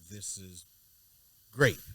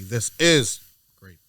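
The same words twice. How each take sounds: First: The stress falls on the word grape. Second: The stress falls on the word is. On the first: "so I'm emphasizing the word grape" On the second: "He'd be like"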